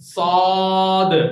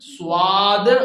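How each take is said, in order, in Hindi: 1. पहले s के बाद w की आवाज़ नहीं आती। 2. पहले s के बाद w की आवाज़ आती है। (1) "डब्ल्यू नहीं आना" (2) "स्वाद गलत है"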